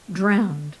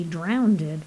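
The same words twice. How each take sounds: First: Drowned said crisply in one syllable, "drownd"; correct pronunciation. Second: Drowned said as "drownded" with an extra syllable; mispronounced drowned. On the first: Acted. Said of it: "Drowned, not drowned". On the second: Retold or imitated. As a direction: stretch drowned into drown-ded, the wrong way. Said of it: "not drowned".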